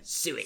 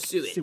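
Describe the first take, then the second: First: It is said in an Emperor impression voice. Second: It is said in his normal voice.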